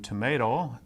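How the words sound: The word is said in an American accent. "as we would in the U S"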